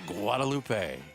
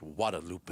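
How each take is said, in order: First: The first G sound is clearly pronounced. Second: The first G sound is left silent. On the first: The speaker calls it wrong. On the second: The speaker calls it right.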